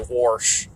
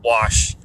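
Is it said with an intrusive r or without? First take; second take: with r; without r. First: It is said with an r sound, Midland style. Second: It is said without an r sound, Chicago style.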